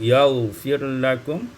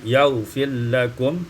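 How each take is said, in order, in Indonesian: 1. Huruf r dibaca terpisah sebelum huruf l. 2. Huruf r dilebur ke dalam huruf l setelahnya.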